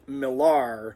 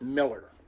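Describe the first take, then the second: First: The name ends with an 'ar' sound. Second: The name ends with an 'er' sound. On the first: This is how the wife said her own name. "she pronounced her last name, her married name, uh, the way it was spelled" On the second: This is how the husband said the name. "Kenneth always pronounced it Miller"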